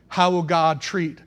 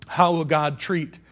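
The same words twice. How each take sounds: The two takes are said the same way.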